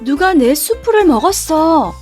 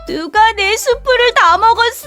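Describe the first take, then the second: First: It is said in a medium voice. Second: It is said in a high, crying voice.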